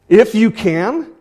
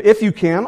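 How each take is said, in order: First: High, loud and slow, in disbelief; incredulous. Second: High, loud echo in disbelief; incredulous. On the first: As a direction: echo his words back, amazed. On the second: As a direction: throw his words back, unbelieving. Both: Retold or imitated. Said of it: "he can't believe that this guy is saying this".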